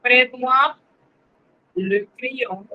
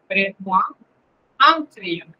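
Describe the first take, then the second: First: "Prête-moi le crayon" spoken slowly, with a closed "le"; teacher models "Prête-moi le crayon" with a closed "le"; French model phrase. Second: "Prête-moi un crayon" with a lower, nasal "un"; French model phrase. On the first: Teacher models the French for Spanish-speaking students, clearly. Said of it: "no es lo mismo decir". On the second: Teacher contrasts the French "un" for the class, lower. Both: Shown as a demonstration.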